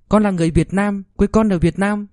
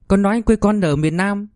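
First: Put-on high child's voice, proudly repeating; a child saying the lesson back to mom; little boy reciting. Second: Put-on high child's voice, earnest; a child reciting an answer to mom; little boy answering. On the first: Child repeats corrected answer. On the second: Child gives wrong answer.

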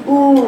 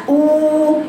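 First: «أو» سطحية بين الشفتين; أخرج «أو» من الشفتين بلا جوف; من الشفتين فقط. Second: «أو» طويلة بنبرة مرتفعة من الجوف; مد «أو» عميقة وواضحة. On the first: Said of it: "جبتيه من شفايفك بس". («أو» خاطئة غير عميقة) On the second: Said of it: "عميق". («أو» بطيئة ممتلئة من الجوف) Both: Shown as a demonstration.

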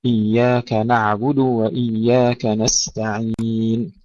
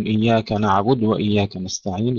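First: Slow recitation, نعبد ending in a clear "du"; full damma. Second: نعبد clipped to "naʕbud", no final u; dal left vowelless. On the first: Teacher modelling correct recitation, slow, with full damma on نعبد. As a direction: sound the u of نعبد fully before moving on. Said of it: "يحقق الضمة قبل أن ننتقل إلى الواو". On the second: Teacher showing students a common recitation slip, vowelless dal in نعبد. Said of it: "يسكنون الدال". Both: Shown as a demonstration.

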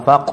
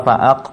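First: ฟัก as one short connected syllable; joined syllable. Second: ฟะอัก as two syllables with a break before อัก; split syllables. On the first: Teacher gives learners the correct reading, ฟัก joined in one. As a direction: run it straight into a single ฟัก. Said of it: "อ่านว่าฟัก". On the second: Teacher warns learners against this reading, ฟะอัก split in two. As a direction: separate ฟะ and อัก. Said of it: "คือเราไม่อ่านว่าฟะอัก". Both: Shown as a demonstration.

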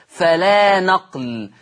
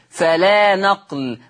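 Both takes have the same delivery.

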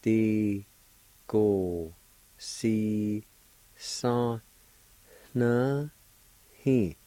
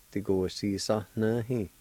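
First: TI, KO, SI, SA, NA, HI each alone, pauses between; syllable-by-syllable pronunciation. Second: "Ti ko si sa na hi" flowing as one word; whole-word pronunciation. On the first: Teacher demonstrating the word for explained, syllable by syllable. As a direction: sound out "Ti ko si sa na hi" one by one. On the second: Teacher giving the finished word for explained, said connected. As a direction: join "Ti ko si sa na hi" without gaps. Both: Shown as a demonstration. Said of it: "It's pronounced like this".

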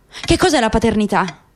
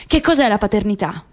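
No difference in how they are said.

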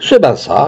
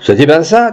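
First: "C'est bien ça" falling as a plain answer; confirming fall. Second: "C'est bien ça" higher, rising at the end; questioning rise. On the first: Companion confirms for the witness, "C'est bien ça" with a falling close. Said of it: "répondit Rousseau". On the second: Witness turns to companion for confirmation, "ça" rising as a question. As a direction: ask it, lifting "ça" into a question. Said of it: "Il se tourna vers Rousseau". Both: A narrator's reading.

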